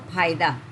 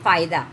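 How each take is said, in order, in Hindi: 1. यह महाप्राण ph ध्वनि से शुरू होता है। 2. यह दाँत-होंठ वाली f ध्वनि से शुरू होता है। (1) "यू विल से फायदा" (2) "यू विल नॉट से फायदा"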